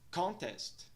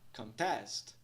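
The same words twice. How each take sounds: First: Both syllables carry stress. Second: Only the second syllable is stressed, longer and higher. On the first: A competition. "indicando que ambas são estressadas" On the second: To dispute something. "essa sílaba é mais alongada e pronunciada em um tom mais alto do que a primeira"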